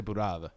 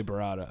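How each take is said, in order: First: Burrata as "boo-RAH-tha"; dialect burrata. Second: Burrata as "ber-AH-da"; Americanized burrata. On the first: Contrasting her own way with a friend's, "boo-RAH-tha". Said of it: "I say burrata". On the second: Contrasting the friend's way, American "ber-AH-da". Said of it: "You say burrata. I say burrata". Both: Shown as a demonstration.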